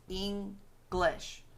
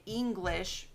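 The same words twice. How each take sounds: First: "English" split into two beats, with a gap; syllable by syllable. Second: Said in the usual way. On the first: Shown as a demonstration. Teacher showing two syllables in a word, split syllable by syllable. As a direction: break "English" apart as Eng, then lish. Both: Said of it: "that's two syllables".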